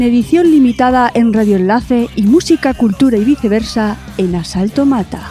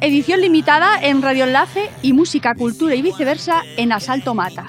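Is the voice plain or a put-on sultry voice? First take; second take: sultry; plain. First: The voice is a deep, sultry late-night voice. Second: The voice is plain and normal.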